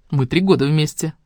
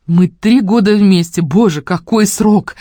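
First: Said in the usual way. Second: Slow, loud mock awe; mock dramatic. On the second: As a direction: ham up the anniversary. Mocking repeat of line.

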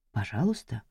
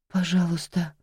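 First: Тихо, низко, с издёвкой; передразнить мольбу вполголоса; насмешливый повтор. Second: Мольба. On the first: (тихая холодная издёвка) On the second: Жертва умоляет. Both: Acted.

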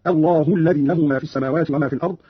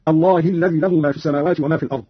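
First: الله said "Allahu", ending in u; u ending on Allah. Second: Said in the usual way. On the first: Shown as a demonstration. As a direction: round the final vowel of الله to u. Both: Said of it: "قرأ قالون برفع هاء الجلالة".

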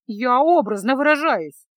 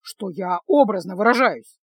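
First: Loud, sing-song mocking echo of his words; mocking mimicry. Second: Said in the usual way. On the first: A narrator's reading. Girl mimicking the mage's excuse, mocking. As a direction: throw his phrase back at him mockingly. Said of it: "передразнила своего спутника".

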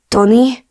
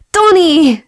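First: Tentative, higher rising question; anxious, uncertain "Tony?"; fearful. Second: Loud, very high, falling shout; elated "Tony!" at full reunion pitch; joyful cry. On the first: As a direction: call the name as if afraid to hope. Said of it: "A hangjában félelem csengett". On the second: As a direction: shout the name, running into an embrace. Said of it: "Szaladt és ugrott a nyakába". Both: A narrator's reading.

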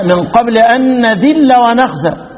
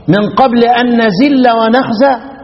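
First: نذل with tongue-between-teeth dh, slow recital; drawn-out correct demo of dh in نذل; correct dhal. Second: نزل with z where dhal belongs, slow recital; drawn-out demo of the z error in نزل; colloquial mispronunciation. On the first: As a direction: recite slowly with a true dh in نذل. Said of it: "اتغير المعنى ولا ما اتغيرش؟". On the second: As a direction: recite slowly, putting a z in نزل. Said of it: "ينفع ان انا ايه؟ اقرا". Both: Shown as a demonstration.

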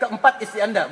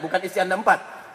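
First: Keempat istri Anda, with keempat first and firm; correct word order. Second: Istri Anda empat, dropped softly as the wrong version; teacher quietly shows the mistake; wrong word order shown. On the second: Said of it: "jangan dibalik". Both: Shown as a demonstration.

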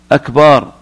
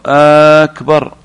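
First: أكبر said as "akbaar", long second vowel; short start on أكبر, then draw out the "baa"; lengthened last vowel. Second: أكبر with a long held opening, "aaaakbar"; lengthened hamza. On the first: Teacher showing the word for a drum, أكبر with lengthened last syllable. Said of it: "يقول لأن هذا اسم". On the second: Teacher showing an invalid takbir, lengthened first vowel in أكبر. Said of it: "أو همزة أكبر". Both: Shown as a demonstration.

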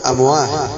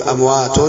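First: أمواه ending "-ah", the t dropped; wrong h ending. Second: أموات keeping its t at the end; open t ending. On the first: Teacher asking if it is allowed, أمواه with h ending. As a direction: say أمواه with h in place of t. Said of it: "لا يصح". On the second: Teacher quizzing the class, أموات with sounded t. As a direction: say أموات with the final t sounded, "amwatun". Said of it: "التاء المفتوحة لا يمكن". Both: Shown as a demonstration.

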